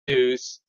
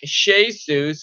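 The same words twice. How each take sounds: First: The name begins with a 'j' sound. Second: The name begins with an 'sh' sound. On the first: This is the later form of the name. "went to Jesus" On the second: This is the older form of the name. "Words like Jesus"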